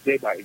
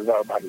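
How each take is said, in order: First: The letter G is read with its name giê. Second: The letter G is read with its spelling sound gờ. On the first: It is read the way the letter is named. The speaker calls it right. "mà chúng ta phải gọi là G7" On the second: It is read the way letters are sounded out when spelling. The speaker calls it wrong. "chúng ta không thể gọi là G7 được"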